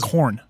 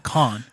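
First: It is said in a standard accent. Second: It is said in a Boston accent. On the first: This is how the uncle does not say it. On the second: This is how the uncle says it. "My uncle, he says con"

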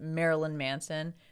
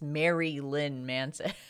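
First: It is said quickly, blended like Marilyn. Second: It is said with Mary and Lynn kept apart. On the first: "if you say it really fast" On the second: "if you pronounce it, you know, in the Chicago way"

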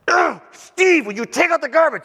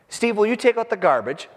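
First: It is an annoyed, exasperated request. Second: It is a plain, neutral request.

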